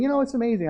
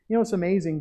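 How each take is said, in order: First: Higher, lightly voiced churchgoer; voicing a churchgoer. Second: Said in the usual way. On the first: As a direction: sound like a congregant amazed at the sermon. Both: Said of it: "You're saying".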